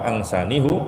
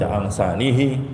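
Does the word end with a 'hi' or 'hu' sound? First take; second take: hu; hi. First: The last syllable is said with a u vowel. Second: The last syllable is said with an i vowel. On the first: It follows the original form. "Maka kalau dibaca bihu atau angsanihu, itu sesuai dengan hukum asal" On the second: It follows the grammatical rule. "Kalau dibaca angsanihi atau bihi fihi, itu sesuai dengan kaidah"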